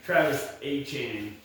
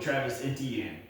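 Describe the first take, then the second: First: The surname sounds like 'ay-chan', two syllables. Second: The surname is read out as it is spelled. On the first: This is how the family really says it. The speaker calls it right. "but it's actually" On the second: This is the pronunciation everyone uses. The speaker calls it wrong. "just say it like it sounds, how it's written out"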